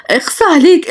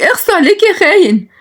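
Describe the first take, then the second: First: Reproach. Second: Very high, hurt and scolding cry. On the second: Nagia scolding Shalash as a traitor, very high and hurt. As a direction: hurl it at him as a betrayal. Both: Acted. Jealous woman scolding husband figure.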